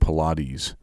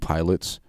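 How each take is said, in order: First: It is said with three syllables, 'pi-lah-teez'. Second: It is said like the plain word 'pilots'. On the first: "apparently they pronounce it pilate" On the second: "When when women do pilots"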